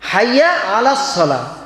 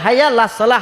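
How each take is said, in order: First: The throat sound and vowel before 'las' are pronounced. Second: The throat sound and vowel before 'las' are dropped. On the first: The speaker calls it right. "আইন জবর আ ... আলাস" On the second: The speaker calls it wrong. "আমরা খালি বলি হাইয়া লাস সালাহ, আইনের শব্দটা আর বলি না"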